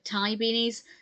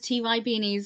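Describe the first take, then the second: First: Ty is said as one word, rhyming with tie. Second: Ty is spelled out as two letters. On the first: The speaker calls it right. "call it Ty beanies" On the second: The speaker calls it wrong. "I pronounced it as T Y beanies"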